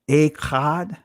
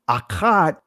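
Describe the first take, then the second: First: It is said in the common modern way. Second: It is said in the older, ancient way.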